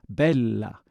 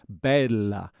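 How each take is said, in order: No difference in how they are said.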